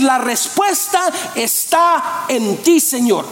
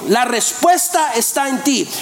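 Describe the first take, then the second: First: Slow and lift the last word; slow, rising declaration. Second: Said in the usual way. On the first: Acted. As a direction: draw out "La respuesta está en ti" slowly with a rise on "ti". Respuesta de fe a la pregunta. ("La respuesta está en ti" lento, subiendo en "ti")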